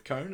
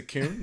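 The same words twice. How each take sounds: First: Said in the usual way. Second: "coon" with a long oo for the vowel of cone. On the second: Retold or imitated. Podcaster mimics a film kid's odd vowel, "coon" with oo. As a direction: stretch "coon" to an oo sound, imitating an accent. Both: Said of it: "he says a coon instead of cone".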